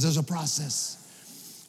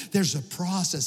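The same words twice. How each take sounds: First: Plain. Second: Said in the usual way. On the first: Shown as a demonstration. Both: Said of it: "Say, say the word with me".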